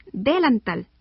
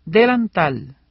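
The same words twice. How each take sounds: First: "delantal" wrongly stressed on the first syllable, DÉ-lantal; "delantal" said as délantal. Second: "Delantal" stressed on the last syllable, delan-TAL; "Delantal" with its normal final stress. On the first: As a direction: hit the "de" of "delantal". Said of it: "porque no decimos". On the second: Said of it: "porque suena más fuerte". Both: Shown as a demonstration.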